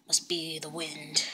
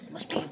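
First: Hushed robber whisper. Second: Said in the usual way. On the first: Acted. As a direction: breathe it out secretly. Robber talking in the car.

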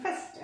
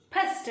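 First: ఫస్ట్ starting with a true f; ఫస్ట్ with soft f, not ph; English f. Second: ఫస్ట్ starting with a puffed p; ఫస్ట్ with plosive ph instead of f; aspirated ph. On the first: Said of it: "అందుకే ఫస్ట్ అంటారు". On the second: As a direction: say ఫస్ట్ as p-hast. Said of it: "ఫస్ట్ అంటే బాగుంది అనమాట". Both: Shown as a demonstration.

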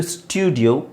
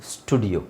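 First: ಸ್ಟುಡಿಯೋ as "styoo-dio". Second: ಸ್ಟುಡಿಯೋ as "stoo-dio", no glide. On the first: Teacher gives first option ಸ್ಟುಡಿಯೋ, gliding "styoo". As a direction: put a y-glide into ಸ್ಟುಡಿಯೋ. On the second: Teacher gives second option ಸ್ಟುಡಿಯೋ, plain "stoo". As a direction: say ಸ್ಟುಡಿಯೋ without a y sound. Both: Shown as a demonstration. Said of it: "ಸ್ಟುಡಿಯೋ or ಸ್ಟುಡಿಯೋ".

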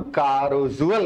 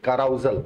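First: कारोजुअल said as ka-ro-zu-al, the o and u kept apart; कारोजुअल with a plain o, then zu-al at the end; first try at the word. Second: काराउजल said as ka-rau-zal, au in the middle; काराउजल with the ou diphthong and a short zal ending; corrected word. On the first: Teacher's first, mistaken go at the word: कारोजुअल as ka-ro-zu-al. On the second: Teacher corrects himself to काराउजल, ka-rau-zal. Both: Shown as a demonstration. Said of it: "हाँ, काराउजल कहते हैं".

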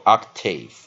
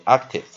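First: "octave" as OK-TAYV, both syllables stressed; full long vowel ending in "octave"; double stress. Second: "octave" as OK-tiv, stress only on OK; light, reduced second syllable in "octave"; single stress. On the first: Teacher recapping the other option, "octave" with two stresses. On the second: Teacher recapping the first option, "octave" with single stress. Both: Shown as a demonstration. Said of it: "两种念法都有人念".

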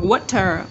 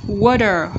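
First: "water" with a fully sounded T; clear T alternative. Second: "Water" with T tapped as D; middle T. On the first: Teacher repeating both options for students, clear T second. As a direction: give "water" a true T. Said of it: "Hoặc là water". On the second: Teacher repeating both options for students, tapped T first. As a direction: soften the T in "Water" to a quick D. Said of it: "T trung âm". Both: Shown as a demonstration.

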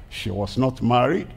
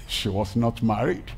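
No difference in how they are said.

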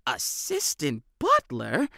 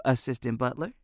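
First: Slow mock-shocked question; Benny hams up hurt surprise at Jack's joke; feigned shock. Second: Said in the usual way. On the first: A narrator's reading. Hammed-up mock shock. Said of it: "Benny feigned shock". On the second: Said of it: "Jack replied".

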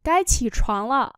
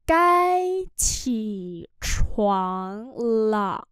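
First: Said in the usual way. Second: Cai chỉ choáng lợ very slow; slow demo. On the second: Shown as a demonstration. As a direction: stretch each syllable. (đọc rất chậm Cai chỉ choáng lợ) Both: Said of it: "Đến giờ dậy rồi".

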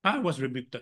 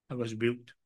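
First: Said in the usual way. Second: A quieter, sinking repeat; softer echo. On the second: Real, not acted. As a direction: let the words fall away as an echo.

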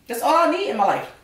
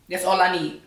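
First: High delighted sigh; blissful. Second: Said in the usual way. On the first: Real, not acted. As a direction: swoon over the food. Savoring the food.

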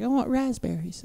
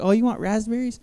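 First: Put-on high, soft, drawn-out toddler plea; softly piped cute-kid imitation; cute little girl. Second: High-pitched indulgent parent question; lilting parent-to-toddler voice, rising at the end; doting parent. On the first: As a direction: imitate a tiny kid asking sweetly. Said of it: "she'd do it all cute". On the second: Retold or imitated. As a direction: coo it back to a toddler. Dad answering his toddler sweetly.

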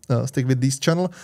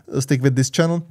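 No difference in how they are said.

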